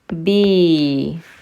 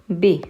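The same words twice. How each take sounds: First: The vowel is long. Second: The vowel is short. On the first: "ba followed by a ya" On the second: "ba with a kasra"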